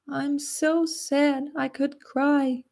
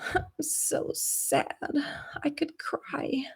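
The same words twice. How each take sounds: First: It is said with a clean, clear tone. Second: It is said with a breathy, emotional voice. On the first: "I wouldn't go ... a really clean tone, it's not very convincing" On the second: "when I'm really sad"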